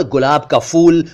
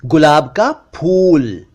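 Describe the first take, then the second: First: गुलाब का फूल with an English f in फूल; mispronounced ph as f. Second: Slow गुलाब का फूल, फूल as p plus breath; aspirated ph. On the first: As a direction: say फूल as "fool", lip on teeth. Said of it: "जबकि असल में ये इस तरह बोलना चाहिए". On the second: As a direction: close the lips and puff: "phool". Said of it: "ये इस तरह बोलना चाहिए". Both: Shown as a demonstration.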